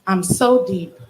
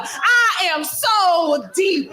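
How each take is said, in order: First: Deadpan mock-solemn refrain; mock profound. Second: Higher, slow, through laughter; laughing mock profound. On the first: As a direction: say it like a self-important poet. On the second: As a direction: drag it out while cracking up. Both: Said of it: "in this tone of voice".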